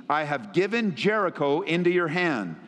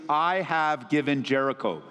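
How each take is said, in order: First: Said in the usual way. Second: Lower, deliberate "I have given Jericho" with weight on "I"; stressed for emphasis. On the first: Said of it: "circle the phrase". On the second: Shown as a demonstration. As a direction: lean on "I" in "I have given Jericho" as a promise to underline. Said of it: "circle the phrase, "I have given Jericho".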